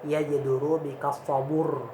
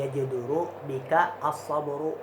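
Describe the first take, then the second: First: The vowel moves before r; it ends on r. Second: The last word ends with a vowel after r. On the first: This is the pausal form with the vowel moved. "Boleh yajiduru bika sabur. ... ra-nya sukun" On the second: This is the original full form. "Asalnya nih"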